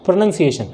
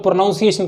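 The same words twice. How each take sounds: First: प्रोनाउंसिएशन with "nun" in the middle, not "noun"; falling प्रोनाउंसिएशन with a short "uh" second vowel; correct pronunciation. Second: प्रोनाउंसिएशन with "noun" in the middle; quick प्रोनाउंसिएशन with an "ow" vowel, as commonly misspoken; common mispronunciation. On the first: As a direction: model प्रोनाउंसिएशन as "pro-NUN-siation". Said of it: "होता क्या है?". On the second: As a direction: say प्रोनाउंसिएशन as "pro-NOUN-siation". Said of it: "हम लोग प्रोनाउंसिएशन कहते हैं". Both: Shown as a demonstration.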